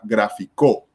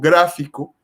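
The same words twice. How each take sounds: First: The stress is on the last syllable. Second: The stress is on the first syllable. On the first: It is the past tense of the verb. "Si fuera la última sílaba" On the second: It is the noun meaning a graphic. "el acento va en gra, que sería la antepenúltima sílaba"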